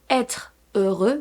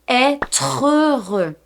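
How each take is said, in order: First: The two words are said with a break. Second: The tr sound links into the next vowel. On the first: The speaker calls it wrong. "So we don't say" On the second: The speaker calls it right. "we say"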